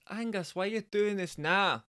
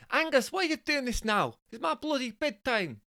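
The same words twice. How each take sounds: First: High Bristolian woman's voice, practice take; attempted Bristolian woman. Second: Very high falsetto Scottish complaint; comic high Scottish woman's voice. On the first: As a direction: have a go at a Bristolian wife. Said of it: "difficult for me to do a Bristolian women's accent". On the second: Acted. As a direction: moan as a put-out Scottish wife. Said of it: "Jessica is actually Scottish".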